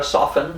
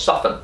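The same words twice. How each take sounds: First: "soften" said with a clear T; wrong soften. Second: "soften" with a silent T, sof-en; right soften. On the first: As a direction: sound the T in "soften", sóf-ten. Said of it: "no decimos soften". ("soften" con la T pronunciada) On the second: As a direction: drop the T in "soften". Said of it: "decimos soften". ("soften" sin T, sóf-en) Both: Shown as a demonstration.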